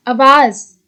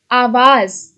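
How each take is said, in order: First: आवाज with a short first vowel, uh-vaaz; wrong form read aloud. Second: आवाज with a long open first a, aa-vaaz; correct form. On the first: Teacher reads the wrong spelling आवाज with short uh. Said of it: "अशुद्ध, शुद्ध". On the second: Teacher gives the correct आवाज with long aa. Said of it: "शुद्ध". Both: Shown as a demonstration.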